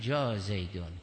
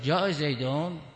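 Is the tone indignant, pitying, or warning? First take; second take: pitying; indignant. First: It sounds pitying and sympathetic toward the arrival. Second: It sounds indignant, questioning why he came. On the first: The poor man has come; help him. "یعنی بیچاره آمده کمکش بکن" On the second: Why did he come? "یعنی چرا آمده"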